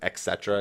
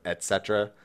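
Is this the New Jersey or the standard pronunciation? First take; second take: New Jersey; standard. First: It is said with a New Jersey pronunciation. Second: It is said with the standard pronunciation. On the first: The speaker calls it wrong. "everyone around me growing up said et cetera" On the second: The speaker calls it right. "instead of et cetera"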